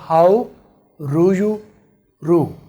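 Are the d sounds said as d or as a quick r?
quick r. The d sounds are pronounced as a quick r. This is the American way. "इसको अगर आर में कर लेंगे तो आप फिर अमेरिकन लैंग्वेज में बोल रहे हैं"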